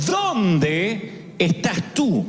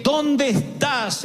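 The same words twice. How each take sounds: First: Stretched, gentle where are you; slow tender call. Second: Slow, sorrowful where are you; sad tender call. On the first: God calls to the hiding Adam, slow and gentle. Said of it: "Dios lo llamó y le preguntó". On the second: Preacher imagines God calling Adam, sad and tender. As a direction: call out grieving, full of grace. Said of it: "la voz sonó triste". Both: Retold or imitated.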